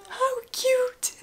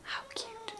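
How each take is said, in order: First: High squeal over something tiny; squealing coo. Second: High breathy whispered coo; soft cooing. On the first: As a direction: squeal it out in delight. Repeated coo, louder. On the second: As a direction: whisper it like it's precious. Cooing over tiny socks. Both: Real, not acted.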